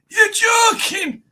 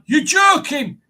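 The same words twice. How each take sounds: First: It is said wheezily, as if short of breath. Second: It is said in a clear, unstrained voice.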